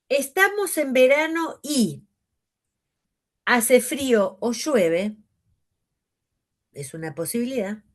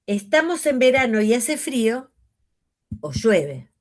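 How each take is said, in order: First: "estamos en verano y" raised, then a pause before "hace frío o llueve"; pause for grouping. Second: "estamos en verano y hace frío" in one breath, pause, then "o llueve"; group "verano y hace frío", then break before "o llueve". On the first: Teacher phrasing one reading for students. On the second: Teacher phrasing the other reading for students. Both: Shown as a demonstration. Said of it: "Ahí hice una pausa a propósito".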